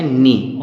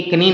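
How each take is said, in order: First: नी said with a silent k, just "nee"; correct pronunciation. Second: कनी with the k sounded, as learners wrongly say it; wrong pronunciation. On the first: Teacher giving students the right reading, नी with no k. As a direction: drop the k and say नी. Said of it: "इसको पढ़ते हैं नी". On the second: Teacher showing students the wrong way, कनी with k. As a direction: sound the k in कनी, the mistake to avoid. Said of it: "ये कनी नहीं होता है". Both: Shown as a demonstration.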